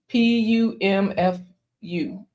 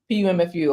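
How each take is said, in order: First: The letters are spelled out slowly. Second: The letters are spelled out quickly. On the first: The speaker calls it wrong. "heard it in slow motion" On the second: The speaker calls it right. "I'm gonna say it faster"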